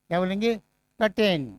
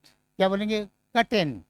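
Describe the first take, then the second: No difference in how they are said.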